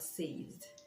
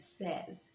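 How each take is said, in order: First: The vowel sounds like the word say. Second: The vowel is a short e sound. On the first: The speaker calls it wrong. "and not says" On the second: The speaker calls it right. "the third person present form is says"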